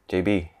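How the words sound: It is said in a Malaysian English accent. "In Malaysia, people call me"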